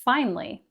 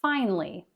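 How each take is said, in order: First: The word is said with two syllables. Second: The same.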